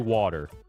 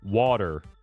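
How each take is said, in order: First: It is said in a general accent. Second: The same.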